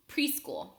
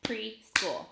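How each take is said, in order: First: Said in the usual way. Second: "Preschool" in two separate beats, Pre, then school; split into syllables. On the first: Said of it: "Listen as I say a word". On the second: Shown as a demonstration. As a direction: break "Preschool" apart after Pre. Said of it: "I'll clap it out".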